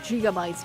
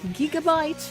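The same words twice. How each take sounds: First: The word begins with a J sound. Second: The word begins with a hard G sound. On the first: The speaker calls it right. "for us, this is pronounced like like your your J. So in Italian, gigabytes makes sense" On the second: The speaker calls it wrong. "not so much"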